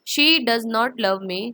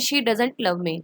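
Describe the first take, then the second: First: "Does not" is said as two full words. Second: "Does not" is shortened to one word.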